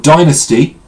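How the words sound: It is pronounced in an American way.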